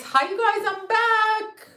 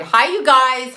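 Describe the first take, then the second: First: Much higher, sing-song hello; high-pitched greeting. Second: Calling out a big hello to the chat; louder hello to the viewers; loud greeting. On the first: Greeting viewers, said twice. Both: Real, not acted.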